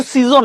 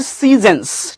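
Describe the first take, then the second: First: সিজন with a full o, "see-zon"; wrong pronunciation. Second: সিজনস as "SEE-zens", long first vowel; slow model of সিজনস with a weak second vowel; careful correct pronunciation. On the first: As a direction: say সিজন the local way, rounded second vowel. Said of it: "এটা কিন্তু সিজন না". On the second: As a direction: say সিজনস as "see-zuhns", not "zon". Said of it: "আমরা সুন্দরভাবে উচ্চারণ করবো". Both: Shown as a demonstration.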